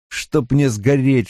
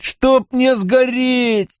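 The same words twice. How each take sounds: First: Muted oath. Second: High, long drawn-out wail of a curse; anguished oath. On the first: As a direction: curse under the strain, held back. Mat curses, first take lower. (сдержанное, протяжное ругательство) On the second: Mat repeats the curse in despair. (отчаянно, высоко и протяжно) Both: A narrator's reading.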